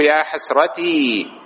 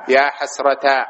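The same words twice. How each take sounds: First: "حسرتي" slowly, ending in long ee; original ya form. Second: "حسرتا" ending in long aa; ya turned alif. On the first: Teacher showing the origin, "حسرتي" with stretched final ee. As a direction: draw out "حسرتي" as hasratii. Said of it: "هذا أصله". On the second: Teacher quoting a regretful speaker, "حسرتا" with long final aa. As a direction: say "حسرتا" as hasrataa. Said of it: "تقلب الياء ألفًا". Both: Shown as a demonstration.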